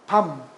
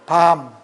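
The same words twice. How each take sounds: First: The vowel is held only briefly. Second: The vowel is drawn out longer. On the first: "이거는 짧게" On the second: "좀 길게 이렇게 소리를 냅니다"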